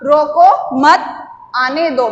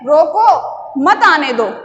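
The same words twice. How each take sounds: First: A short pause comes after 'mat'. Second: A short pause comes after 'roko'. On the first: Do not stop him; let him come in. "यहाँ पर या ये थोड़ा सा हम रुके थोड़े समय के लिए" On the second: Stop him there; do not let him come. "मतलब उसको वहीं रोक लो, मत आने दो"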